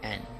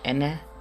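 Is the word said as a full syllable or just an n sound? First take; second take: just n; full syllable. First: It is reduced to just an n sound. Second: It is said as a full two-sound syllable. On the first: "Sometimes though you'll hear just n" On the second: "and is ene"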